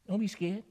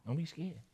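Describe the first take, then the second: First: Said in the usual way. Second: "Don't be scared" said again, softer and gentler; softer repeat. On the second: Shown as a demonstration. Preacher reassuring the church, softer. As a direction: ease off and reassure.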